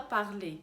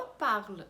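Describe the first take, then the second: First: Parler said with a sounded final E as in the infinitive; wrong infinitive form. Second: Parle said with a silent final E, ending on the L; correct conjugated form. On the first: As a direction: parler ending on an open E sound. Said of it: "a gente não fala parler". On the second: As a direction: parle as one syllable, the E unspoken. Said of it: "a gente fala parle". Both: Shown as a demonstration.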